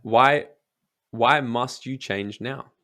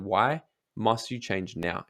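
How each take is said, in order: First: Why must you change now? asked slowly, leaning on why; a coach's slow, pointed why; slow probing question. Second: Why must you change now? asked again slowly, why weighted; retold probing question. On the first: Shown as a demonstration. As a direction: press them slowly with why. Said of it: "I'm gonna ask them". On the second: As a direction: slowly repeat the coaching question. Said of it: "I asked her, I said".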